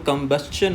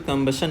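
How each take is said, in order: First: The ending is a 'stchun' sound. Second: The ending is a plain 'shun' sound. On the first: The speaker calls it right. "वो कंबस्शन होता है" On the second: The speaker calls it wrong. "कंबशन नहीं होता"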